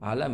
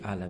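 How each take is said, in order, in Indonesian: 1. Bunyi L ditahan panjang dan didobel. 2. Bunyi L pendek dan tunggal.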